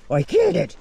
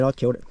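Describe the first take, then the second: First: Squeaky boastful I killed it; high bragging dog voice. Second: Said in the usual way. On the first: Pretend. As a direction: brag it in the dog's high voice. Dog voice in mock argument.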